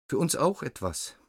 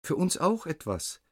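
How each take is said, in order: First: High buzzing echo of the flies; buzzing fly voice. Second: High buzzing insect plea; buzzing fly voice. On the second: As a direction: squeak it like tiny flies. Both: A narrator's reading. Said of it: "eigenartiges Summen".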